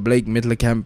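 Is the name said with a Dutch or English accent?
English. The name is said in an English accent.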